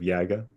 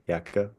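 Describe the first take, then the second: First: The middle consonant is a voiced g sound. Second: The middle consonant is an unvoiced k sound. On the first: "instead of" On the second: "K does that in similar places"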